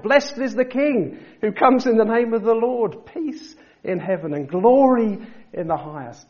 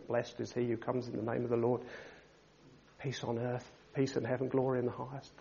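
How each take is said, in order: First: Joyful shout, much higher and louder. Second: Mock mumbled praise, much softer and lower; timid mumbled worship; mumbling. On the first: Retold or imitated. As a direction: proclaim it at the top of your voice. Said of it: "They were shouting out". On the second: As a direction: mutter it half-heartedly under your breath. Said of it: "can you, mumbling".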